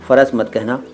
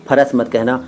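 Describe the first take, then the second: The two takes are said the same way.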